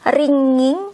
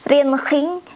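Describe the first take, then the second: First: The ng is one smooth nasal sound. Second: The ng is followed by a hard g sound. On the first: The speaker calls it right. "but you say it with ringing, the eng there" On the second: The speaker calls it wrong. "you don't say it with ringing"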